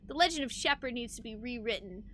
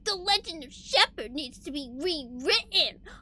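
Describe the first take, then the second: First: It is read in a plain, normal voice. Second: It is read in a dramatic villain voice.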